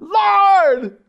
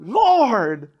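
First: It is cried out with passion and desperation. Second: It is said flatly, without much energy.

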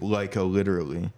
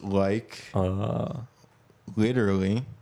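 First: The phrase is run together quickly as one word. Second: The phrase is said at a normal, slower pace.

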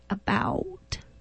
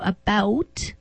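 First: It is said with an American accent. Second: It is said with a Canadian accent.

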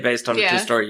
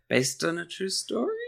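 First: The voice falls flatly at the end. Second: The voice rises at the end. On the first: It is stated as a plain fact. The speaker calls it wrong. "You can't say based on a true story" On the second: It hints at doubt that the story is true. The speaker calls it right. "You got to say it that way"

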